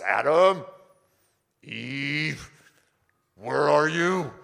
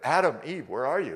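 First: It is called out in an angry tone. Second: It is called out in a gentle tone.

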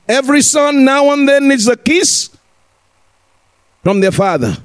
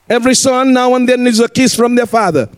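First: The sentence is spoken slowly and deliberately. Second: The sentence is spoken at a normal pace.

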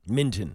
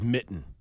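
First: The syllable is said with a clear n, 'minton'. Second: The syllable is said without the n, 'mitten'. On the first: This is the technically correct form. "It's technically badminton" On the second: This is the form most people use. "But everybody says mitten"

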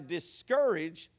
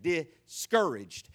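First: The 'courage' part is separated and emphasized. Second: The word is said smoothly with no emphasis. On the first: "hear how I said it" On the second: "They pronounce it discouraged"

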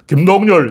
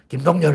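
First: It is called in a full voice from the vocal folds. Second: It is called in a thin voice from the throat.

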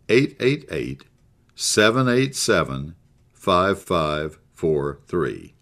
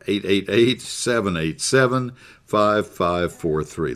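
First: The number is said slowly and deliberately. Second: The number is said at normal, quicker pace.

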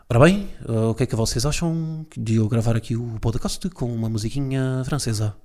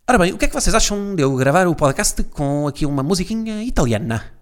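First: Portuguese is spoken with a French-style lilt. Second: Portuguese is spoken with an Italian-style lilt.

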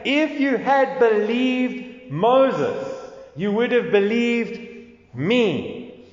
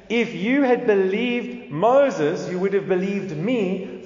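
First: It is said slowly. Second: It is said at normal speed.

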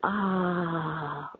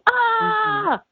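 First: It sounds like a relaxed, easy sigh. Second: It sounds like a tense, pained cry.

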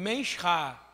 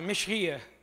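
First: The word is said at a slow, normal pace. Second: The word is said quickly.

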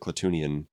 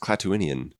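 First: No extra vowel follows the long oo sound. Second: An extra vowel follows the long oo sound. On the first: The speaker calls it wrong. "everybody misses that I after the double O. So they all pronounce it" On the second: The speaker calls it right. "But it's"

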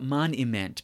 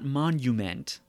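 First: The middle vowel sounds like 'i'. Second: The middle vowel sounds like 'u'. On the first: This is the archaic form, hinting at a person who invites ridicule. "but moniment, because he spells it M-O-N-I-M-E-N-T" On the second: This is the ordinary modern word. "not monument"

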